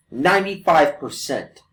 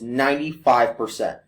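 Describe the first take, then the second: First: Ninety-five percent, slow and pressed; emphatic repeat. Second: Said in the usual way. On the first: Real, not acted. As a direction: hammer the number home slowly. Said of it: "And that's no bullshit".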